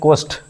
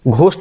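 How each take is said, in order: First: The h sound is silent. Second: The h sound is pronounced. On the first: The speaker calls it right. "एच silent होता है यहाँ पे" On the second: The speaker calls it wrong. "Ghost नहीं होता है"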